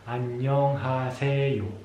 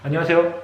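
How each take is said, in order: First: It is said very slowly, syllable by syllable. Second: It is said very fast, syllables run together. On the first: "al principio vamos muy lentamente sílaba a sílaba" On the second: "sino muy rápido, en plan"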